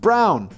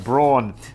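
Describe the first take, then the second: First: The vowel does not rhyme with yawn. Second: The vowel rhymes with yawn. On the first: The speaker calls it right. "the surname is pronounced Brown" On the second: The speaker calls it wrong. "distort it to Braun"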